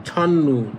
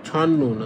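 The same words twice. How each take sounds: No difference in how they are said.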